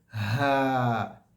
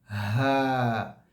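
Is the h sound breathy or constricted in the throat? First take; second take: breathy; breathy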